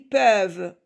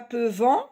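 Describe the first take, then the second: First: The final -ent ending is silent. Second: The final -ent ending is pronounced aloud. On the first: The speaker calls it right. "on lit peuvent, V avec E, c'est tout" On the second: The speaker calls it wrong. "on ne lit pas"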